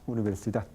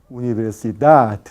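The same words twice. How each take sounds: First: The syllables have about equal lengths. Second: The syllables have clearly uneven lengths. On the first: The speaker calls it right. "la duración de cada sílaba es más o menos idéntica" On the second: The speaker calls it wrong. "No se dice universidad"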